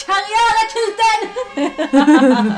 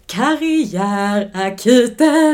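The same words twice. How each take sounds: First: Very high, loud, drawn-out scream; full-out scream. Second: Held-back shout, drawn out and higher; half-hearted shout. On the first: Co-host told her to just scream, full playful scream. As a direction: let rip and scream the show title. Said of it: "bara skrik". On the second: Podcast host announcing the show, timid half-shout. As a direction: call it out slowly, not daring to scream fully. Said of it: "vågar typ inte skrika riktigt". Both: Pretend.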